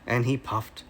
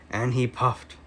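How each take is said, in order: Both takes have the same delivery.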